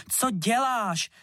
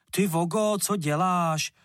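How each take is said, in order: First: High, slow shrieked question; shrieking. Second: Put-on higher, louder angry boy's cry; angry outburst. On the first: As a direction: shriek at him in shock. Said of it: "zaječela Verunka". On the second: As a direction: snap at him in anger. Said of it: "rozčílil se". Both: A narrator's reading.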